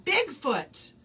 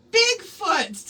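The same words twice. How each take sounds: First: Said in the usual way. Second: The keyword again, louder and higher; emphatic repeat. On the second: Shown as a demonstration. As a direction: call out Bigfoot louder and higher the second time. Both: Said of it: "the keyword for tonight is".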